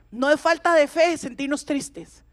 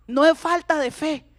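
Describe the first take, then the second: First: Said in the usual way. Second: Es leaned on firmly; stress on es. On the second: Shown as a demonstration. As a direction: insist on the word es. (énfasis en "es", dicho con firmeza)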